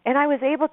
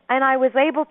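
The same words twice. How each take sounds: The two takes are said the same way.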